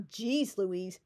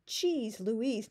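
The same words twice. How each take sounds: First: Said in the usual way. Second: Cheese said with a ch sound, Cheese Louise. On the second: Shown as a demonstration. Quoting Nancy's odd phrase, Cheese Louise with ch. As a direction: say Cheese not Jeez, Cheese Louise.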